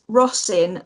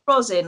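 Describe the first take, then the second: First: The first syllable sounds like 'Ross'. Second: The first syllable sounds like 'rose'. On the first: The speaker calls it right. "like Ross in the shop" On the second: The speaker calls it wrong. "it's not rosin like you'd put on a violin"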